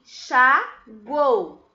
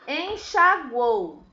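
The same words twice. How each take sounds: First: "enxaguou" in three slow beats, en, xa, guou, with pauses; loud, slow syllable-by-syllable "enxaguou"; split into syllables. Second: "enxaguou" said slowly as one connected word; slow, careful "enxaguou", syllables joined; drawn-out word. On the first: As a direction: break "enxaguou" apart: en... xa... guou. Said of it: "Dica pra separar as sílabas". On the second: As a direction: stretch "enxaguou" without breaking it up. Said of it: "Separei as sílabas". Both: Shown as a demonstration.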